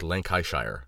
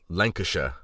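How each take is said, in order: First: It is said letter by letter, as spelled. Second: It is said the everyday spoken way. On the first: "when it's spelt like Lancashire" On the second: "how is it Lancashire"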